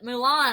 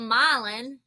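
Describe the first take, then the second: First: The first syllable sounds like 'moo'. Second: The first syllable sounds like 'my'. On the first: The speaker calls it wrong. "but they would call it Mulan" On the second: The speaker calls it right. "it's called Milan"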